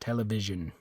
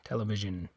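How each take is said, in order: No difference in how they are said.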